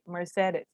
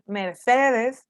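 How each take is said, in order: First: The word is said softer, with English sounds. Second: The word is said with Spanish-style sounds. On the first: The speaker calls it right. "Keep it a little softer in your mouth" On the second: The speaker calls it wrong. "Instead of saying Mercedes"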